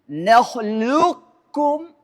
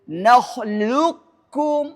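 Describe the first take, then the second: The two takes are said the same way.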